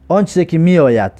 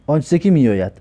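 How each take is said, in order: Both takes have the same delivery.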